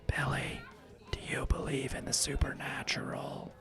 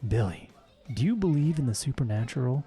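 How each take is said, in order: First: It is said in a conspiratorial whisper. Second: It is said in a normal voice.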